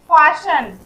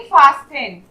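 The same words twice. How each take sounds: First: Loud "फाशन" with no t; silent t. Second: "फास्टन" with a clear s-t in the middle; t wrongly sounded. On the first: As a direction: say "फाशन" firmly, sh straight into n. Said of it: "इसे हम लोग क्या पढ़ेंगे". ("फाशन" में ट मौन) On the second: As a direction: misread it as "फास्टन", pronouncing the t. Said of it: "ना कि फास्टन". ("फास्टन" में ट बोलकर गलत उच्चारण) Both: Shown as a demonstration.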